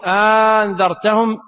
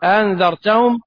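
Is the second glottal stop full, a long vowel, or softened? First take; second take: long vowel; softened. First: The second glottal stop becomes a long vowel. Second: The second glottal stop is softened, only lightly pronounced. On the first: "وإبدال الثانية ألفا" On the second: "وتسهيلها"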